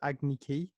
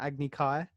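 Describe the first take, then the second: First: The second word rhymes with 'key'. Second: The second word rhymes with 'eye'. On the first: The speaker calls it wrong. "this random kid actor that comes in and says Agni Ki" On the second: The speaker calls it right. "I believe it's an Agni Kai"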